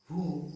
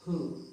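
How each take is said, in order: First: "who" with the W sounded, like woo; wrong pronunciation. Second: "who" with silent W, like hoo; correct pronunciation. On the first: Teacher showing learners the mistake, "who" said as woo. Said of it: "So this is not". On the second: Teacher showing learners the correct way, "who" said as hoo. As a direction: start "who" on a plain H. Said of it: "but it's who". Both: Shown as a demonstration.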